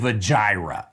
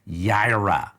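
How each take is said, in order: First: The word begins with a J sound. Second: The word begins with a Y sound. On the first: This is the English form of the word. "is how we pronounce it in English" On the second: This is the Hebrew form of the word. "It's really the y, y sound"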